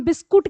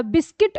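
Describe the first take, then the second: First: बिस्कुट with "u" in the last syllable; altered everyday form बिस्कुट, ending in -kut; Hindi-adapted pronunciation. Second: बिस्किट with a short "i" in the last syllable; English pronunciation. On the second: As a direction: say बिस्किट as in English, bis-kit. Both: Shown as a demonstration. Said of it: "को हम बिस्कुट कहने लगे".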